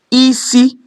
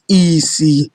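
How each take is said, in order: First: Both syllables are on a high tone. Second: Both syllables are on a low tone. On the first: It means head. "head, which is high, high" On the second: It means blindness. "low, low, blindness"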